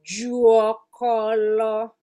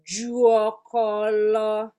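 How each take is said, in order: First: A u vowel is heard after the J. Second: The same.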